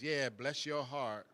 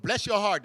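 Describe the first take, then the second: First: Slow, soft "bless your heart" with a smirk; dry sarcastic blessing. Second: Sarcastic blessing. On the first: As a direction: let the pity drip, quietly. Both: Shown as a demonstration. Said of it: "it's kind of sarcastic".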